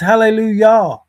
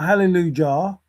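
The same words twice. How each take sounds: First: The middle consonant is a Y sound. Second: The middle consonant is a J sound. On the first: The speaker calls it right. "It is Hallelujah" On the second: The speaker calls it wrong. "not Hallelujah. There was no J"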